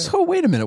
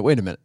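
First: Sharply higher, startled stop; surprised interruption. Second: Said in the usual way. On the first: Real, not acted. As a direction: halt the talk in surprise, high. Sudden interruption to question.

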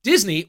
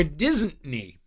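First: Said in the usual way. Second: Second "Disney" stretched as "Dizzn't-nee"; punning mispronunciation. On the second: Shown as a demonstration. Host naming the fake-project option, "Disney" punned as "Disn't-ney". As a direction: say "Disney" like "Disn't-ney", leaning on the first syllable. Quiz title puns on Disney.

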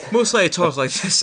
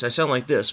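First: Said in the usual way. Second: Booming announcer read; mock announcer delivery; official announcer voice. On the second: Shown as a demonstration. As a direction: sell it like a radio announcer. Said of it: "official announcer voice".

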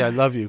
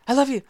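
First: Quickly. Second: Short and sharp, louder, like a dagger; clipped. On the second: Explaining how a rushed I love you sounds, clipped and sharp. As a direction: throw it out like a dagger. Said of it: "they can be clipped". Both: Retold or imitated.

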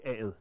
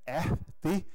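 First: "aet", af and det run together; contracted spoken form. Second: "af det" as two separate words, slowly; full two-word form. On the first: Lecturer demonstrating everyday talk, "aet" drawn together as one word. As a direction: merge the two words into one short "aet". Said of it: "det her med at trække sammen". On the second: Lecturer showing the written form before contraction, "af det" pronounced in full. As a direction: say "af det" uncontracted, both words sounded. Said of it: "i stedet for at sige". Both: Shown as a demonstration.

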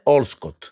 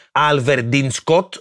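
First: Allscott squeezed into two syllables, OLL-scot; as pronounced locally. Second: Alverdin Scott sounded out in full, AL-ver-din-scot; as written. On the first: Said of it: "και προφέρουνε". (Allscott κομμένο σε «Όλσκοτ») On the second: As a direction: read every syllable of Alverdin Scott. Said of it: "Γράφουνε". (Alverdin Scott όπως γράφεται, «Αλβερντινσκότ») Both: Shown as a demonstration.

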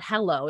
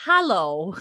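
First: Said in the usual way. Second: "hallow" with an open first vowel, as in hat. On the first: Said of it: "like, not hello". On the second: Shown as a demonstration. Correcting a co-host on the word, "hallow" with an open A. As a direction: stretch "hallow", opening the first syllable. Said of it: "it's hallow".

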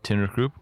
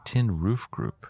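First: Tin Roof Group with the weight on Tin, the rest run together; stress on Tin. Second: Tin Roof Group with Roof stretched out and weighted; stress on Roof. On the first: Host showing partner how emphasis changes a name, stress on Tin. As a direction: lean on the first word, Tin, in Tin Roof Group. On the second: Host showing partner how emphasis changes a name, stress on Roof. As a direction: hit the middle word, Roof, in Tin Roof Group. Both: Shown as a demonstration. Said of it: "what syllable you put the emphasis on".

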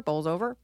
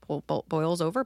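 First: "bowls over" with a long oh vowel; second try at the phrase, landing on "bowls"; unsure pronunciation. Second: "boils over" with a diphthong, oy, after false starts; stumbling pronunciation. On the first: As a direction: say "bowls over" to rhyme with "rolls over". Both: Real, not acted. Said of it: "Fucking words".

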